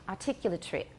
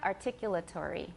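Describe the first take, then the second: First: The word is said with five syllables, ending squeezed. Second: The word is said with six full syllables. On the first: This is how a British speaker says it. "how many does my British teacher have? ... He has five" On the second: This is how the speaker's own variety says it. "how many syllables do I have? ... I have six"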